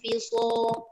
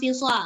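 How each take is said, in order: First: The vowel after the s is thick and dark. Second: The vowel after the s is thin and open. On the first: The speaker calls it right. "Jadi macam mana baca dia? Lam fi so" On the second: The speaker calls it wrong. "jangan fisa"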